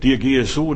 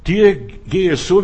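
First: Said in the usual way. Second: „Dir gehe so" said slowly, louder and higher, stress on Dir; slow emphatic quote. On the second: Shown as a demonstration. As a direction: lean hard into „Dir gehe so" to make the point. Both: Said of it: "Ich möchte das ein bisschen weiter erweitern".

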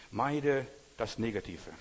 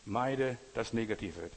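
First: Slow, weighty Meide das Negative; slow emphasis. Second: Slow, weighty echo of Meide das Negative; slow repeated emphasis. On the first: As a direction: lean on Meide, slowly. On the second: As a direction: repeat it slowly, hitting Meide. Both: Shown as a demonstration.

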